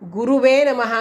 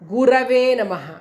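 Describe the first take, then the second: First: The second vowel is pronounced as 'u'. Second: The second vowel is pronounced as 'a'. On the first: The speaker calls it wrong. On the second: The speaker calls it right.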